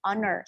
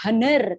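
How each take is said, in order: First: "honor" starting on the vowel, like "on-er"; correct silent H. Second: "honor" with an audible H at the start; wrong pronunciation, H sounded. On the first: Teacher correcting how to pronounce honor, H silent. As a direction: drop the H entirely from "honor". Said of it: "the way you pronounce it bukan honor, tapi". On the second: Teacher showing the mistaken honor, H pronounced. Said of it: "the way you pronounce it bukan". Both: Shown as a demonstration.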